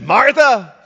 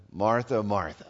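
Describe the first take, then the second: First: Sharp, louder and higher; an angry rebuke to a friend; word of anger. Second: Softer and lower, tender; a tender, loving call to a friend; words of love. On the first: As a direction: snap the name out in anger. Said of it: "maybe a word of anger". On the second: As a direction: say her name gently, full of love. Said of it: "Those are words of love". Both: Retold or imitated.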